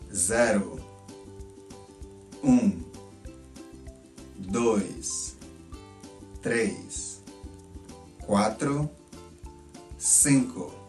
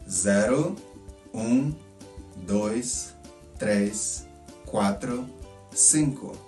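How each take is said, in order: First: The counting is said at a normal speed. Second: The counting is said a little faster.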